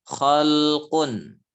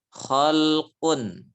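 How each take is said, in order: Both takes have the same delivery.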